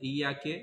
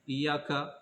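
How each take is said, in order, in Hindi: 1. यह शब्द 'e' स्वर से खत्म होता है। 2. यह शब्द 'a' स्वर से खत्म होता है। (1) "मुअन्नस का सेगा हो जाएगा" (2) "मुज़क्कर का है"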